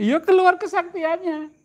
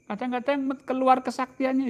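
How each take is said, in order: First: Higher, slower echo of keluar kesaktiannya, stressing keluar; emphatic echo. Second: Said in the usual way. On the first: Acted. Louder higher echo of line 17.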